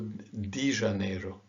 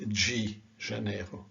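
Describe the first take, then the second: First: The word 'de' starts with a plain d sound. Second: The word 'de' starts with a j sound. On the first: This is a regional variant of the rule. "some people say Rio de Janeiro" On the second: This follows the general rule. "not G Janeiro"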